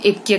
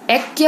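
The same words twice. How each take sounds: First: ऐक्य said as "ekya"; wrong vowel. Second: Said in the usual way. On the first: Shown as a demonstration. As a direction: close the first vowel of ऐक्य to "e". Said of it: "वो ऐक्य कहेंगे". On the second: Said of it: "ऐक्य होता है".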